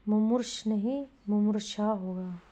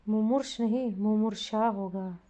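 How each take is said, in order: Both takes have the same delivery.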